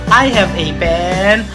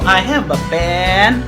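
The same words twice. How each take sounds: First: The article is a full 'ay' sound. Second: The article is a short reduced 'uh' sound. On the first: It is more formal and stresses that there is only one. "How about they read it as A?" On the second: It is ordinary everyday speech. "they read A as a in their normal everyday living"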